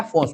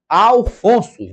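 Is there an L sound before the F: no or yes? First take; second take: no; yes. First: The name is said without an L sound. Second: The name is said with an L sound. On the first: The speaker calls it wrong. "Não é Afonso" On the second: The speaker calls it right. "é Alfonso"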